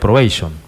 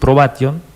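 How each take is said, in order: First: The word is pronounced with English-style sounds. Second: The word is pronounced with Spanish-style sounds. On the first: The term is read as coming from English. The speaker calls it wrong. "para mí era probation" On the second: The term is read as coming from Latin. The speaker calls it right. "te escuché decir probation"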